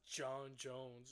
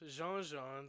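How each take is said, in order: First: The vowels sound like 'john' and 'jones'. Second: The vowels sound like 'jean' and 'jeans'. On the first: The speaker calls it wrong. "not John Jones" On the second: The speaker calls it right. "That's the proper way to say it"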